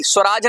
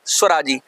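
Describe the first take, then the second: First: स्वराज without the final ई; स्वराज cut short of its last vowel; wrong word form. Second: स्वराजी ending in a long ई; स्वराजी with the final vowel sounded, pitch falling; correct word form. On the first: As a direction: say स्वराज, ending on the ज sound. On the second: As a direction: finish स्वराजी on a clear "jee". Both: Shown as a demonstration. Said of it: "स्वराज नहीं".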